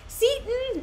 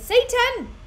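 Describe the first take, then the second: First: The name sounds like the word Seaton. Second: The name sounds like the word Satan. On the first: "I'll call him Seaton" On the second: "it's not Satan as in like Satan"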